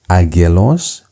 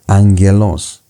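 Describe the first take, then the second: First: The first consonant is pronounced as a hard G. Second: The first consonant is pronounced as an N. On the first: The speaker calls it wrong. "Instead of pronouncing it as agelos" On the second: The speaker calls it right. "the pronunciation becomes angelos"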